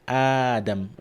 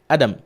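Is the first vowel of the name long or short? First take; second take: long; short. First: The first vowel is held long. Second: The first vowel is cut short. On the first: The speaker calls it right. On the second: The speaker calls it wrong.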